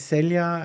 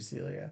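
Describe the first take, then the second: First: The name is said with Latin American pronunciation. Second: The name is said with American English pronunciation. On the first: "If we were saying it like in a Latin American accent" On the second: "everyone here calls her Celia"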